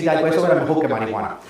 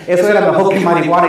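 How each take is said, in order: First: Said in the usual way. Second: "era" stressed and louder, rising at the end; emphatic restatement. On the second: Shown as a demonstration. Owning the joke before the congregation, "era" stressed. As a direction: insist on "Eso era mejor que marihuana". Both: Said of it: "No, perdóname".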